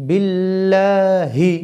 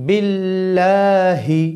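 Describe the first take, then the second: Both takes have the same delivery.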